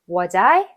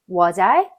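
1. 두 단어가 줄어들고 붙어서 발음돼요. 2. 두 단어가 줄어들고 붙어서 발음돼요.

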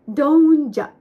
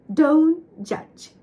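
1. "don't" の t は、詰まる音（止め）がありません。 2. "don't" の t は、止めたまま開放しない閉鎖音です。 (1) "ではなく" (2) "ちゃんとこの詰まる感じをね出さないとdon't ではない"

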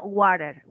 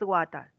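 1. Se pronuncia con acento americano. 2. Se pronuncia con acento británico. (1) "Si es como americano" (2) "Si vamos a hablar británico es water"

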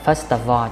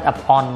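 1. Từ 'of' kết thúc bằng âm v. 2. Từ 'of' kết thúc không có âm v. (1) "nhớ là first of all" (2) "chứ không first of all nha"

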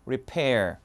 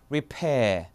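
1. 끝의 r은 발음합니다. 미국식입니다. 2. 끝의 r은 탈락합니다. 영국식입니다. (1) "미국은요 repair R 그대로 서 있어요" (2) "영국은 repair"

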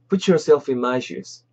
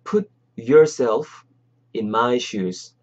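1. 자연스럽고 빠른 속도로 말해요. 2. 천천히 또박또박 말해요. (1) "자연스럽게" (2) "천천히"

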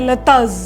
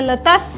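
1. શબ્દનો અંત z અવાજથી થાય છે. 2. શબ્દનો અંત s અવાજથી થાય છે. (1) "જ પણ ઉચ્ચાર થાય છે" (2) "એસ પણ"

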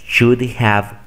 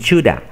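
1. La palabra have se pronuncia completa. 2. La palabra have se reduce a una vocal. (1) "como nosotros lo aprendemos" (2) "los nativos reducen todo este have a una A"

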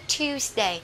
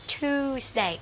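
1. Âm 'y' đi sau âm T. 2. Âm T đi thẳng vào âm 'oo' dài. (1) "người Anh sẽ đọc là Tuesday" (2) "còn người Mỹ thì sẽ thích đọc là Tuesday"

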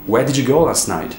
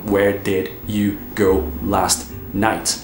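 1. As palavras se juntam e saem corridas. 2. As palavras são ditas separadamente, uma por uma. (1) "Então é tudo emendado no inglês" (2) "Você não fala"

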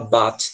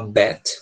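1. A vogal soa como um 'a' aberto do português. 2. A vogal soa próxima de um 'e'. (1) "parece português" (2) "com som de E"

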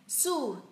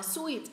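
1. Từ này được đọc với nguyên âm oo tròn môi. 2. Từ này được đọc như sweet, với nguyên âm ee.

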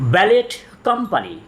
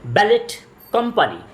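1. "Ballet" শেষ হয় "t" শব্দ দিয়ে। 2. "Ballet" শেষ হয় "t" শব্দ দিয়ে।

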